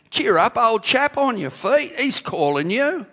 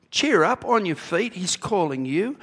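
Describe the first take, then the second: First: Loud, high-pitched put-on English accent; jolly old-chap English accent, called out; Stephen Peters' English accent. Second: Rousing call. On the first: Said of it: "Use Stephen Peters' accent here". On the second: Acted. Reading the crowd's call aloud.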